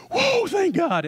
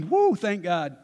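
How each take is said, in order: First: Put-on much higher squeaky boy's whoa of relief; Isaac's startled, high-pitched relief; relieved boy. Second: Abraham's grown-up sigh of relief; relieved father. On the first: Isaac spared on the altar, high squeaky relieved whoa. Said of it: "Isaac at that moment is thinking". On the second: Retold or imitated. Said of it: "And Abraham's thinking".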